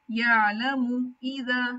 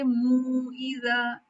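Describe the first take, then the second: First: यालमू इज़ा with a short मू, no long वाव; correct short मू. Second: मू इज़ा with मू stretched into a long वाव; wrong drawn-out मू. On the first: Teacher models the right reading, slow and exact. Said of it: "यालमू ऐसे नहीं पढ़ना". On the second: Teacher imitates the student's error, stretched vowel. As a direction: drag मू out too long, the mistake. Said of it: "ऐसे नहीं करना". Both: Shown as a demonstration.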